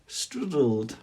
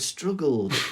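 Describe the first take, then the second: First: The middle consonant is a D sound. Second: The middle consonant is a G sound.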